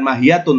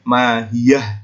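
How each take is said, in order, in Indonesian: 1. Kata itu berakhir dengan suku kata -tun. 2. Kata itu berakhir dengan bunyi h senyap. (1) "Jadi bukan mahiyatun tulisannya" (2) "tapi mahiyah disukun"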